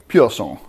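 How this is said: French-sounding, with the final vowel dropped. The speaker calls it wrong. "To me, it sounds French"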